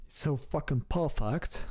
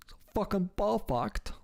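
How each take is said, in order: First: A hint of a British accent on "It's so fucking perfect"; light British accent. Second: Higher, hammed-up British accent on "So fucking perfect"; goofy British accent. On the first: Streamer praising the British accent, lightly in a British accent. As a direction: try the British accent half-heartedly, under the breath. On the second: Streamer mimicking British speech for laughs, in a high goofy British accent. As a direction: push the British accent up into a goofy posh squeal. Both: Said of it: "Just sounds so goofy".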